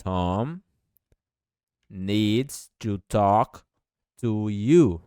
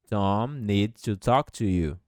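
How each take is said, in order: First: Very slow, words pulled apart; slow dictation. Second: Said in the usual way. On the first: Shown as a demonstration. Teacher dictating slowly to Portuguese-speaking students. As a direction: lay each word down slowly. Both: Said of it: "Perceba o S".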